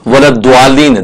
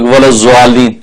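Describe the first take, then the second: First: The key consonant sounds like a plain d. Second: The key consonant sounds like a z. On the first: "दाल भी ना पड़े" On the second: "वो भी सही नहीं"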